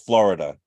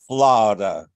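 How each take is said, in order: First: It is said with a plain standard accent. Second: It is said with a Southern Georgia accent. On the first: "In other words" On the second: "I will use my best Georgia pronunciation"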